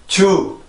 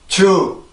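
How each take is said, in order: First: It is said flat, with a Korean-style j sound. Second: It is said flat, with a Korean-style j sound.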